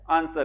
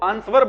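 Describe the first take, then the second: First: The W sound is silent in the word. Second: A W sound is pronounced in the word. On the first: The speaker calls it right. "डब्ल्यू ... silent होता है, और आर भी silent होता है" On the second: The speaker calls it wrong. "बहुत सारे बच्चे इसको आंसर बोल देते हैं, ध्यान रखना, इसको आंसर नहीं बोलते"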